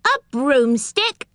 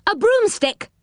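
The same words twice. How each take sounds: First: Slow, high, rising question; astonished. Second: High-pitched call, falling at the end; loud reply. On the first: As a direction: draw it out in astonishment, rising at the end. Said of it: "more astonished than ever". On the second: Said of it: "said Moonface loudly". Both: Acted.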